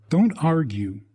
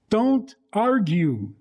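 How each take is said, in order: First: Said in the usual way. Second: "don't argue" stretched very slowly, pitched higher; slow stress. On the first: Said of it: "restated advice". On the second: Shown as a demonstration. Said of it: "slow emphatic advice to parents".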